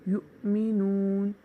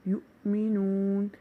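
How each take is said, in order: No difference in how they are said.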